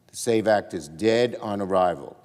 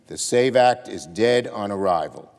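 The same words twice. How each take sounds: First: It is said at normal volume. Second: It is said louder.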